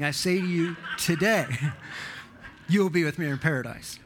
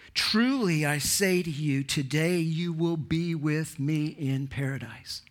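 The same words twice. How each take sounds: First: Mock the old reading with the break after "today"; comma after today. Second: Slow reading with the pause after "to you", then "today you will be with me in paradise"; comma after to you. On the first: Preacher laughingly mimics the wrong reading he once taught, pause after today. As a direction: pause after "today", a laugh, then a rushed "you will be with me in paradise". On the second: Shown as a demonstration. Preacher reads Jesus' promise to the thief, pause before today. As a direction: let the break fall before "today", weighty and slow.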